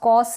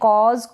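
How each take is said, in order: First: The word ends with an 's' sound. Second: The word ends with a 'z' sound. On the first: The speaker calls it wrong. "कॉस ना पढ़े" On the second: The speaker calls it right. "ये है कॉज"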